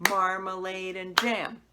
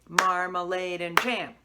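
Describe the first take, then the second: Both takes have the same delivery.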